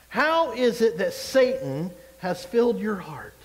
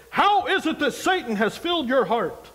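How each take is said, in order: First: Slow, solemn scripture reading; slow weighty reading. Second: Higher, louder, put-on churchy friend voice; imitating a churchy friend who would never talk like that; mock friend in Christ. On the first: Shown as a demonstration. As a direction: read slowly, letting each word weigh. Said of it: "I like to pause and think about things". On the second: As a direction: play a friend saying it over the top. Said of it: "'cause we don't talk like that".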